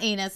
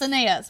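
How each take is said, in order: First: The name has two syllables, like 'anus'. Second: The name has three syllables, ah-nah-ees. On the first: The speaker calls it wrong. "but it's not Anus" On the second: The speaker calls it right. "It's Anais"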